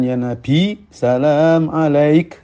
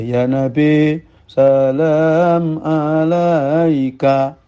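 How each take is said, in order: First: The phrase stops on a final consonant. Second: The phrase ends on a final vowel.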